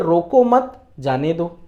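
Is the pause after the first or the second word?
second. There is a pause right after the second word.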